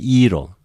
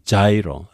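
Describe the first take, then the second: First: It begins with a soft y-like sound. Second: It begins with a j-like consonant sound. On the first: This is how Greek speakers say it. "they say iro, like gamma with gamma with iota" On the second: This is how English speakers say it. "the people in English, they say gyro"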